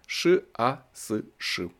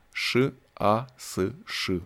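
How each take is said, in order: First: Each letter of «Ш А С Ш» read apart, slowly; spelled out slowly. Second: Each letter of «Ш А С Ш» read apart, very slowly; spelled out slowly. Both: A narrator's reading. Reading the shirt pocket lettering, spelled out slowly.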